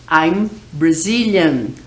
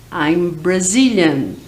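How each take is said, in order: Both takes have the same delivery.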